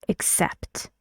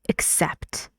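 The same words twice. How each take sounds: The two takes are said the same way.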